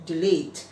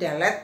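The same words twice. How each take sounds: First: It is pronounced the English way. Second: It is pronounced the common Indonesian way. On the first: The speaker calls it right. "pengucapan yang benar dalam bahasa Indonesia adalah delete" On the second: The speaker calls it wrong. "bukan delete"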